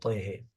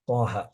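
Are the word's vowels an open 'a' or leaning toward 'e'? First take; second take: toward e; open a. First: The vowels are tilted toward an e sound. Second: The vowels are kept as an open a. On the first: This is the reading taught with imalah. "dengan imalah Thaha dengan Taihe" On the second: This is the reading without imalah. "riwayat Hafs membaca dengan Thaha"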